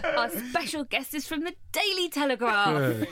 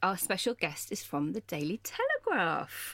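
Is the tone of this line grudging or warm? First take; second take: warm; grudging. First: The tone sounds warm and sincere. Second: The tone sounds grudging and unenthusiastic. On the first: The speaker calls it right. "Say that again nicely, like you meant it" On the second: The speaker calls it wrong. "I'm not sure I like the tone of your voice"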